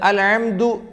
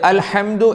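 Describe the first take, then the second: First: The throat consonant is a voiced ayn sound. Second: The throat consonant is a breathy h sound. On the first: The speaker calls it wrong. "അൽ ഹംദു എന്നായപ്പോൾ സിഫത്ത് മാറിയ കാരണത്താൽ അക്ഷരം തന്നെ മാറി" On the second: The speaker calls it right. "അൽഹംദു എന്നുള്ളത്"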